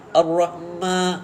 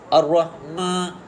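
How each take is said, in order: No difference in how they are said.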